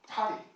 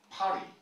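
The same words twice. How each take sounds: First: The middle consonant is a soft flap. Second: The middle consonant is a soft flap.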